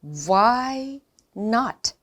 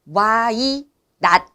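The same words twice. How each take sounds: First: "why not" with rounded wh gliding into "why", then short "not"; drawn-out glided "why", crisp "not"; refined English pronunciation. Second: "why not" in two slow separate chunks, wa-i and nat; stretched "why not" with "why" as two Korean vowels; wrong Korean-style reading. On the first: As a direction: model "why not" slowly, starting from wha. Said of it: "Wha-, wha". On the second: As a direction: mimic the mistake, louder "why not" broken apart. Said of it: "이게 아니고요". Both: Shown as a demonstration.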